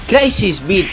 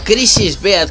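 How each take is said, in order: First: The name is said with English-style pronunciation. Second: The name is said with Spanish-style pronunciation. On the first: This is the official way to say the name. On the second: This is how the speaker always said it.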